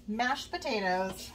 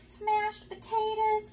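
First: Said in the usual way. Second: Put-on "Smashed potatoes" said like a little kid, higher, slow and drawn out, with an extra s sound at the start; childish mispronunciation. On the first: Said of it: "how to say mashed potatoes". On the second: Little girl answers granny, higher and slow: "Smashed potatoes". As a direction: imitate a small child saying "Smashed potatoes", high and stretched. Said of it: "I didn't know how to say mashed potatoes".

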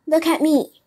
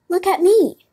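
First: Raised, loud storybook fox; high, forceful plea; emphatic appeal. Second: Very high, loud storybook cat; higher, more insistent cry; echoing appeal. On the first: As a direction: call attention to yourself as a warning. Fox offers himself as warning. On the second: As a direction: chime in, pitched right up. Cat echoes the fox's warning. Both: A narrator's reading.

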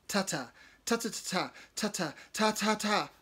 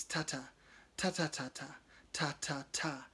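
First: Hesitant attempt. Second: Clicked rhythm. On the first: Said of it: "I try". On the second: Acted. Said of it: "his tongue clicking against the roof".

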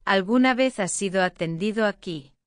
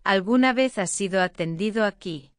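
Both takes have the same delivery.

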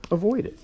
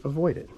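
First: "Avoid" pitched much higher and punched; emphatic advice. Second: Said in the usual way. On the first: Shown as a demonstration. Groomer urging viewers to prevent knots, "Avoid" punched high.

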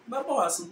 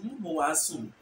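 First: "Mebo wa sum" the Twi way, with "Me"; Twi accent. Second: "mo bo wa sum" the Fanti way, with "mo"; Fanti accent. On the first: Teacher comparing the two side by side, Twi accent. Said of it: "Twi will say". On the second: Teacher comparing the two side by side, Fanti accent. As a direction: Fanti rendering, falling at the end. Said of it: "But Fanti will say". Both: Shown as a demonstration.

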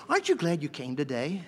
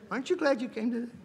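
First: Said in the usual way. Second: Laughing. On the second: Shown as a demonstration.

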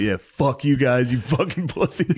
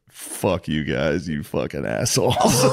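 First: Retold defiant taunt. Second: Slow, low, drawn-out insult; retold scornful taunt. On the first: Killer to watching families, rising mocking taunt. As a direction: stretch out the mock parting insult. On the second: Killer's last words to families, slow low taunt. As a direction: drag it out low, breaking into a laugh. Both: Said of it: "talked shit at the execution".

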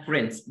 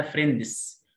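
First: American-style فريندز, one syllable, D barely there; American pronunciation. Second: فريندز as 'frendis', D clearly released; British pronunciation. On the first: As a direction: say فريندز as 'frenz' with the D hidden. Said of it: "امريكان اكسنت اسمها". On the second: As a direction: say فريندز with the D sounded out. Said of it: "بريتش اسمها". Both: Shown as a demonstration.

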